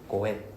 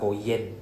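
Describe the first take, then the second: First: The word is a plain 'en' with no y. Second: The word starts with a y sound, 'yen'. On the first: The speaker calls it right. "we don't pronounce the Y sound" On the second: The speaker calls it wrong. "not go yen"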